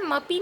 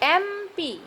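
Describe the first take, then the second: First: It begins directly with the m sound. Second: It begins with a vowel before the m. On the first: The speaker calls it wrong. "इसका उच्चारण जो है मपी नहीं है" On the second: The speaker calls it right. "ए का उच्चारण हो रहा है"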